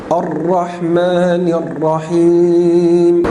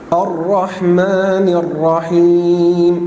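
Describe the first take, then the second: No difference in how they are said.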